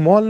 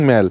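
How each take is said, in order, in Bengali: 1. স্বরধ্বনিটি একটি গোলাকার 'o' ধ্বনি। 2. স্বরধ্বনিটি একটি খোলা 'a' ধ্বনি। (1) "দার্জিলিং মল" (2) "দার্জিলিং ম্যাল"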